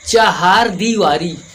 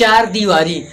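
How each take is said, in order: First: The first word is said as longer 'chahar'. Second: The first word is said as short 'char'. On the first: The speaker calls it right. "ये होता है आपका चाहार दीवारी" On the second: The speaker calls it wrong. "चार दीवारी नहीं होता है"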